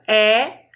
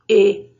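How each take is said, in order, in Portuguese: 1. A vogal é pronunciada aberta, como 'eh'. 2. A vogal é pronunciada fechada, como 'ay'. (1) "da letra E ficar aberta" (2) "ela fica com o som dela de origem"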